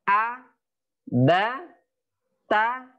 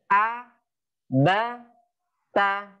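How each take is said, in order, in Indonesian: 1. Setiap suku kata diucapkan terpisah dengan jeda. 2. Setiap suku kata diucapkan terpisah dengan jeda.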